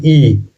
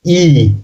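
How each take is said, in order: First: ई held out as a demonstration; teacher's drawn-out ई; stressed ई. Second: ई drawn out and falling; long stressed ई. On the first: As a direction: sound out "ee" on ई with some push. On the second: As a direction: lean on a long "ee" for ई. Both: Shown as a demonstration. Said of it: "थोड़ा जोर लगता है बोलने में".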